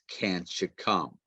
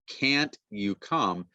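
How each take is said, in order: First: The t and y merge into a ch sound. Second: The t and y are said separately. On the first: The speaker calls it right. "it's can't you come" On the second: The speaker calls it wrong. "it's not can't you come"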